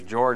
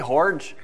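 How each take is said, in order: First: The name begins with a J sound. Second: The name begins with an H sound. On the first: The speaker calls it right. "if their name's George" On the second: The speaker calls it wrong. "continually mispronounce their name"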